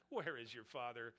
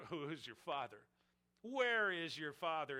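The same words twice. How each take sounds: First: Said in the usual way. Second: A jeering, louder challenge on where; mocking taunt. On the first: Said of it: "there's an ad hominem attack". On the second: Leaders taunting Jesus about his father, mocking jeer.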